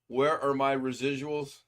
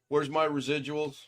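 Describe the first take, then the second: First: It is said more slowly. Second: It is said at a normal pace.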